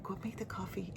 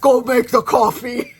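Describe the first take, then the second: First: Soft, near-whispered nudge; quiet urging. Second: Loud, higher-pitched shouted command; aggressive order. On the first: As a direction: say it under your breath. First, gentler take of command. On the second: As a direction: bellow it as a bossy order, half laughing. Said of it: "maybe it was a little too aggressive". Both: Retold or imitated.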